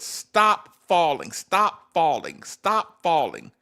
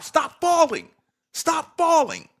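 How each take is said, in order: First: Slow, emphatic mock yell; retold yell. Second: High, loud imitated coach's yell; nonstop yelling. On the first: Fan yelling at a player, slow mock yell. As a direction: drum it out slowly, each repeat the same. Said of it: "I yell it". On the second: Imagined coach to player, high nonstop yelling. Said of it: "yells at him nonstop".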